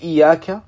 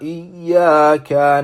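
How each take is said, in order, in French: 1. Le son y est simple et bref. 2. Le son y est doublé et prolongé. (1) "si on n'appuie pas sur le ya" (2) "Ici, c'est très important"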